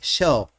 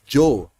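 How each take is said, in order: First: The first sound is like English sh. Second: The first sound is like English J.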